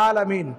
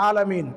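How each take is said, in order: Both takes have the same delivery.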